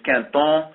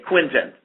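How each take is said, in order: First: The name is said with a French pronunciation. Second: The name is said with a British pronunciation. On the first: "the real French pronunciation is" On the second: "in the U K, they say"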